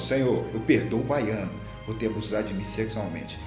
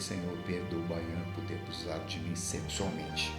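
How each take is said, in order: First: It is said somewhat louder. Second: It is said very quietly.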